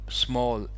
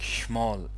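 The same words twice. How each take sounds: First: The word begins with a clear S sound. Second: The word begins with an SH-like sound.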